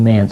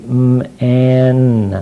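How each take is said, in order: First: It is said quickly as one word. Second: It is said slowly, sound by sound.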